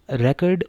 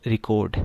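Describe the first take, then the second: First: record with the stress on the first part, RE-cord; stress on first syllable. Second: record with the stress moved to the end, re-CORD; stress on second syllable. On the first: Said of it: "as a noun जब use होगा". (Record पहले हिस्से पर ज़ोर) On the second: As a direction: say record as the verb, last syllable punched. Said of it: "जब as a verb use होगा". (Record दूसरे हिस्से पर ज़ोर) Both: Shown as a demonstration.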